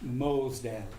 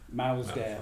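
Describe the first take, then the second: First: The first syllable rhymes with 'moss'. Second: The first syllable rhymes with 'mouse'. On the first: The speaker calls it right. "the correct pronunciation is Mosdale" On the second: The speaker calls it wrong. "rather than"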